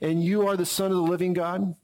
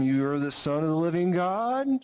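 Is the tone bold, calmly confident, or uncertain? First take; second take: bold; uncertain. First: It is declared boldly and forcefully. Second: It is said hesitantly, like a question.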